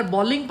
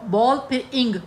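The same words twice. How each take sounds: First: Said in the usual way. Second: "बॉल" and "इंग" said as separate pieces; word broken in two. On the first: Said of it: "अगर bowling पढ़े ना तो वो फिर इकट्ठा". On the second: Shown as a demonstration. Teacher breaking bowling for students, "बॉल" and "इंग" kept apart. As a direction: split it with a gap: "बॉल", then "इंग". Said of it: "इसको भी हमने तोड़ा".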